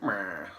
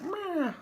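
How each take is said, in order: First: Low grumbled meh; dismissive Republicans. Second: Very high squeaky meh; a shrug of a sound, pitched way up; dismissive Democrats. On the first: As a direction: drop it low like a bored shrug. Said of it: "and Republicans like". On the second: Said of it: "'cause Democrats were like". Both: Retold or imitated.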